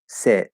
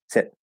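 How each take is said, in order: First: The word is said at a slower, normal pace. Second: The word is said faster, with a shorter vowel.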